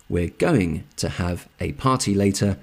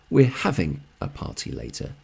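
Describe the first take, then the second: First: "going" carries the main stress. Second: "having" stressed, falling ending. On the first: Teacher giving two more example sentences, stress on "going". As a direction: lean on the word "going". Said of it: "the emphasis is on the action". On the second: Teacher contrasting a second party sentence, stress on "having". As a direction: lean on "having", then let it fall. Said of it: "the emphasis is on the plan". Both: Shown as a demonstration.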